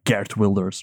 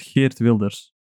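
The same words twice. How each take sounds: First: The name is said with an American accent. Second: The name is said without an American accent.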